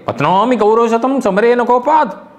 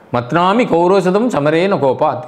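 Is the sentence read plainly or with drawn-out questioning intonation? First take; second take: questioning; plain. First: A sound is drawn out with questioning intonation. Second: It is read in a plain, even statement tone. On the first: The speaker will surely crush the hundred enemies. "by Kaku, Kaku means the intonation... that sound you extend" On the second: The speaker will not kill the hundred enemies. "If you read it in a simple way"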